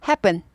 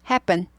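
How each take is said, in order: No difference in how they are said.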